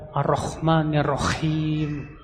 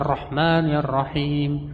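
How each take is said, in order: First: The words are said with a rough kh sound. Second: The words are said with a soft h sound. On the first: The speaker calls it wrong. "pakai kha" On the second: The speaker calls it right.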